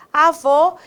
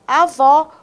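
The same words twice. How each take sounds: First: AVÔ with a closed final o. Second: AVÓ with an open final o. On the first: Teacher comparing accents for students, closed ô in AVÔ. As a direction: round the last vowel of AVÔ to a close-mid ô. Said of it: "ótima palavra pra gente comparar". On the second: Teacher comparing accents for students, open ó in AVÓ. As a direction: open up the last vowel of AVÓ. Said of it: "com acento". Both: Shown as a demonstration.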